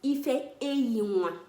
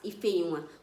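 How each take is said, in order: First: It is said slowly. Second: It is said fast.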